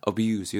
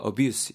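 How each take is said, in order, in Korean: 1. z 소리로 끝나요. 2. s 소리로 끝나요. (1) "말 그대로 남용하다라는 느낌 전할 수 있는 동사 되겠습니다" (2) "약간 s 발음으로 끊기게 되면은 s 발음으로 들리게 되면은 명사로"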